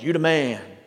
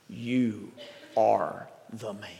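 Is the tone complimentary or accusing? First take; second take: complimentary; accusing. First: It sounds like a casual, praising compliment. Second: It sounds like a grave, piercing accusation.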